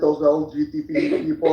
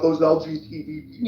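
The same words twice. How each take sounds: First: It is said in a put-on Moldovan accent. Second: It is said in the speaker's ordinary accent.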